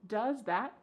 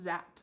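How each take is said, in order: First: Both words are said fully and separately. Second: The words are squeezed together into one short sound.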